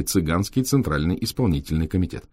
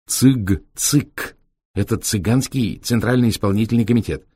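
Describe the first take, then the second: First: Said in the usual way. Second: Higher lively gypsy explaining; gypsy driver voice. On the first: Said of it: "вывеской". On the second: Acted. Витёк объясняет. (голосом цыгана-шофёра)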